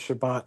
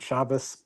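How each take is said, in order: First: The word ends with a t sound. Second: The word ends with an s sound. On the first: This is the biblical pronunciation. The speaker calls it right. "the biblical canon ha- w- has always treated Shabbat as Shabbat" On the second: The speaker calls it wrong. "pronunciation of um, the Tov as an S"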